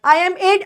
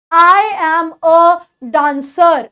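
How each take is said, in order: First: "I am a" with the I said as a full "ai"; wrong pronunciation. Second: "I am a dancer" slow, with the I said as "aay"; right pronunciation. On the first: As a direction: say "I" as a full, separate "ai". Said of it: "नहीं होता, आई नहीं बोलते". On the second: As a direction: sound out "I" as "aay", slowly. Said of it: "ऐसे करके हम लोग बोल सकते हैं". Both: Shown as a demonstration.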